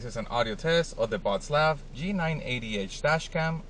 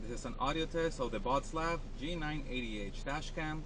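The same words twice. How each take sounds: First: The voice sounds close and clear. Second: The voice sounds distant and muffled. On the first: "I am sitting on the driver's side seat" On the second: "I am standing outside the driver's side door"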